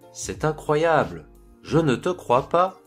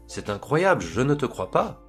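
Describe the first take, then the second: First: The sentence is spoken slowly. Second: The sentence is spoken quickly. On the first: "je vais les dire lentement" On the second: "ensuite rapidement"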